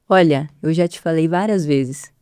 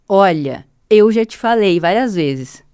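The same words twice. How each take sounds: First: The vowels start gently without a forceful onset. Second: The vowels start abruptly with a forceful onset. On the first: The speaker calls it right. "Eu vou falar agora com o ataque vocal normotrófico" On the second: The speaker calls it wrong. "eu vou falar com um ataque vocal brusco"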